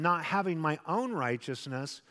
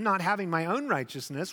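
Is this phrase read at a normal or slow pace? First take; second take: slow; normal. First: It is read at a slow pace. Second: It is read at a normal pace.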